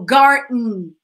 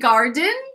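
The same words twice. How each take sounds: First: The D sound is left silent. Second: The D sound is clearly pronounced. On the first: "we usually make the D, the letter D, silent" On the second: "You can say garden, garden, it's fine"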